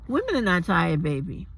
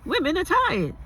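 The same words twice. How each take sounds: First: Said in the usual way. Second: Mock the phrase high and whiny; parroting the claim high and mocking; mocking quote. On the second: Shown as a demonstration.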